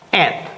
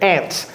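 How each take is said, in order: First: The final t sound is dropped. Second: The final t sound is clearly pronounced. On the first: "Or you can just say ant" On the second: "sometimes you can add the t at the end of it"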